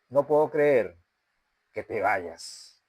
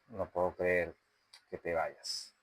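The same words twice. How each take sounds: First: It is sharp and clipped with a hard T. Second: It is low, slow, quiet and breathy. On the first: The speaker is furious that the other person is leaving. "estamos en una versión enojada ... hacer énfasis en la T de te vayas ... O vamos a hacerlo mejor" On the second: The speaker is hurt that the other person is leaving. "La versión triste, tono grave, ritmo lento y volumen bajo, aire en la voz. Sería más o menos así"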